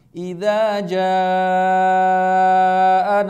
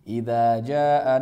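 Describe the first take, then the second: First: The vowel in the second word is drawn out. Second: The vowel in the second word is short. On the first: The speaker calls it right. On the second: The speaker calls it wrong. "malah dibaca pendek hanya dua harokat"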